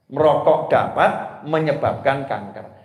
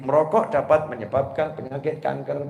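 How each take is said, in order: First: It is read with a pause after dapat. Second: It is read smoothly with no pause after dapat.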